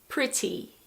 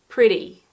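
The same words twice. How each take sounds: First: The middle consonant is a clear T sound. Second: The middle consonant sounds like a soft D. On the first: "In British English, normally you pronounce the T like a normal T" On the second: "In American English, often the T is more like a D"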